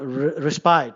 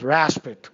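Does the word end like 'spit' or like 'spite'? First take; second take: spite; spit. First: The word ends with a long 'spite' sound. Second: The word ends with a short 'spit' sound. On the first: The speaker calls it wrong. "We'll be tempted to pronounce it respite" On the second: The speaker calls it right. "but they pronounce raspit"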